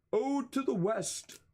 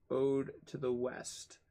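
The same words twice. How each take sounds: First: Much higher, hammed-up recital; mock-theatrical. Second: Said in the usual way. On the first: Streamer repeats the poetry example, mock-theatrical. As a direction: declaim it high, like a silly poet.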